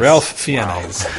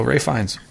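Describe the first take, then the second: First: "Ralph Fiennes" with the L sounded, Fiennes split in two; mock literal pronunciation. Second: "Ralph Fiennes" as Rayf Fines; name said as Rayf. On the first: Joining co-hosts' joke, "Ralph Fiennes" as Ralf Fee-ens. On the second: Real, not acted. Casting his hero, "Ralph Fiennes" said Rayf Fines. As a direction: say "Ralph Fiennes" with no L, rhyming safe and lines. Group plays with the name's pronunciation.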